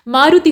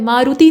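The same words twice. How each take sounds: First: मारुति with short u and i; quick vowels after maa in मारुति. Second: मारुति with long oo and ee; stretched later vowels in मारुति; wrong vowel lengths. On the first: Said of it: "मारुति होता है". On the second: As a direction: say मारुति as maa-roo-tee. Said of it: "मारुति नहीं बल्कि". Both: Shown as a demonstration.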